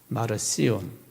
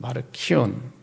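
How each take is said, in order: First: The middle consonant is an s sound. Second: The middle consonant is a k sound. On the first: "마르시온이라고 발음하기도 하고" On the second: "또는 마르키온이라고 발음하기도 합니다"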